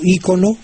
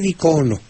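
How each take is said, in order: First: The stress is on the first syllable. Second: The stress is on the second syllable. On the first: "está también aceptado ícono" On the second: "con las acento en, en la en la segunda sílaba"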